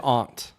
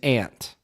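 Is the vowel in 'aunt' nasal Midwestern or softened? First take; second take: soft; nasal. First: The vowel is softened, more British-sounding. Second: The vowel is nasal and Midwestern. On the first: "I've started to say aunt" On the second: "the Michigan way to say it is aunt"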